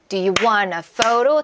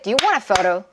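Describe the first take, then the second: First: It is said more slowly. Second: It is said faster.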